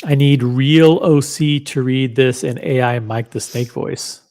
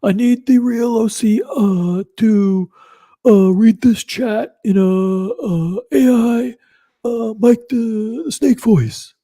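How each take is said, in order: First: Said in the usual way. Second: High, loud put-on voice with halting uhs; exaggerated high-pitched AI impression, stretching the words; AI Mike the Snake. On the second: Streamer performs a chatter's requested read, high AI Mike the Snake voice. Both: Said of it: "this is a requested, uh, voice".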